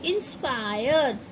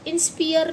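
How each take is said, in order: First: The stressed vowel sounds like 'eye'. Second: The stressed vowel sounds like 'ee'. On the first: The speaker calls it right. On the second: The speaker calls it wrong.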